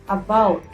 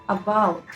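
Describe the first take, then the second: The two takes are said the same way.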